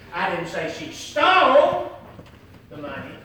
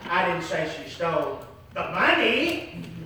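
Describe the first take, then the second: First: The stress falls on the word stole. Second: The stress falls on the word money. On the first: She did something else with the money. "if she didn't steal the money, what did she do with the money?" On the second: She stole something other than the money. "if she didn't steal the money, what did she steal?"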